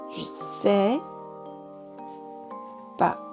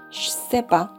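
First: The vowel of je is dropped. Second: The j sound becomes a ch sound. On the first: "je 后面的这个我们是可以不发音的" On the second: "我们可以把这个日换成这个样子"

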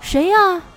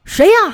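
First: It is asked in a raised, louder voice. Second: It is asked as an angry shout.

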